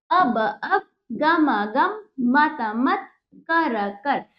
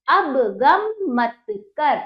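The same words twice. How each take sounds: First: Word by word reading. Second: Put-on slow, smooth reading for children; whole sentence read. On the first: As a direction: spell it out for children, doubling every word. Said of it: "teacher models each word twice". (हर शब्द दो बार, रुक-रुक कर) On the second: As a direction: join the words into one slow sentence. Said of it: "teacher then reads sentence whole". (पूरा वाक्य धीरे-धीरे जोड़कर) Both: Shown as a demonstration.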